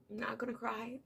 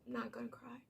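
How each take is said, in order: First: Hushed, choked whisper holding back tears; barely voiced, trying not to cry; a real held-back sob in the voice; fighting tears. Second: Fainter, near-silent choked repeat; whispered to herself to stay composed; swallowing tears, almost no voice; fighting tears. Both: Real, not acted.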